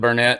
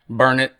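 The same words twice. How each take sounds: First: It is said the way newcomers say it. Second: It is said the way locals say it. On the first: The speaker calls it wrong. "instead of Burnett" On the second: The speaker calls it right. "I'm having to learn how to say stuff like Burnett"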